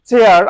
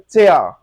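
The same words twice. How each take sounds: First: চেয়ার with a clear r at the end; American style with the r; r pronounced. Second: চেয়া ending in an open vowel, no r; British non-rhotic chair; British r-less. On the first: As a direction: sound the r in চেয়ার. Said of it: "আমরা বলি চেয়ার". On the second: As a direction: drop the r from চেয়া. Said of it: "ওরা বলে চেয়া". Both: Shown as a demonstration.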